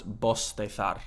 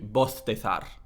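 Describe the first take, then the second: First: The s sounds like s, the z like th. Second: Both the s and the z sound like th. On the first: "distinción, which would be pronounced bostezar" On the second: "Ceceo, everything is a th sound"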